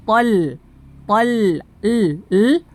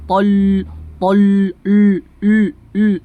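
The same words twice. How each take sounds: First: TOL with a light, clear L; thin lam. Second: TOL with a heavy, dark L; thickened lam. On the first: Teacher showing students the correct thin lam. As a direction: keep the L in TOL thin after the heavy vowel. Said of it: "tol tipis huruf lamnya". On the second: Teacher showing students the lam error, thickened L. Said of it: "menebalkan huruf lam". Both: Shown as a demonstration.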